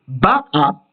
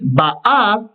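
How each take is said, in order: First: The stress is on the first syllable. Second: The stress is on the last syllable. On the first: She came, in the past. "la première syllabe des deux qui est accentuée" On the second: She comes, in the present. "on accentue donc le a"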